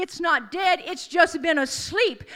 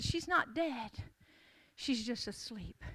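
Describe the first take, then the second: First: Said in the usual way. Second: Soft, low and slowing, almost to yourself; hushed assurance. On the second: Acted. Jesus telling the mourning crowd, softly and calmly. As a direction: let it fall gently into silence.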